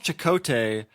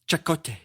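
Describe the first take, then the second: First: The name has the usual American pronunciation. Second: The name has a non-American sounding pronunciation.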